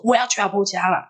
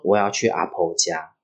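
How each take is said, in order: First: High-pitched, stubborn outburst; mock-fierce demand, pitched way up; retold fierce insistence. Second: Said in the usual way. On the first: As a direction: act out a cross sleepwalker insisting. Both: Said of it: "他说我很凶".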